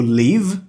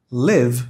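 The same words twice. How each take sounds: First: "Live" said as "leave", tense ee; long-i pronunciation. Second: "Live" with an eh-like vowel; short-i pronunciation. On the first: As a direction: model "Live" with a long ee sound. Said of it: "A letra E tem som de I". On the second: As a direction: say "Live" as "lev", lower in pitch. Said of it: "a letra I tem som de E". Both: Shown as a demonstration.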